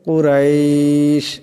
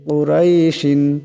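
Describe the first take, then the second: First: The word ends on 'sh' with a lengthened vowel. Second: The word ends with an added 'in' sound. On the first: The reciter stops to take a breath here. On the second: The recitation continues without stopping.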